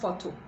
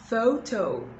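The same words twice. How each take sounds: First: The first vowel is a pure vowel. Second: The first vowel glides as a diphthong. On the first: The speaker calls it wrong. "not photo" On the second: The speaker calls it right. "And now to the O"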